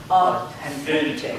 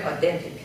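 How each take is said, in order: First: The th sound has a breathy airflow. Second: The th sound has no breathy airflow. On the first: The speaker calls it right. "see if this moves when you hit the T H" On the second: The speaker calls it wrong. "some of you are saying something more like authentic"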